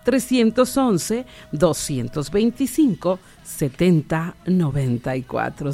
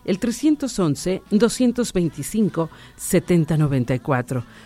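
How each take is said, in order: First: The number is said slowly. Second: The number is said at normal speed.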